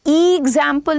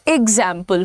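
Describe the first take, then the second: First: The word starts with a long vowel. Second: The word starts with a light vowel. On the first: The speaker calls it wrong. "कभी भी ई एग्जाम्पल नहीं होता है" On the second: The speaker calls it right. "वो एग्जाम्पल होता है वो"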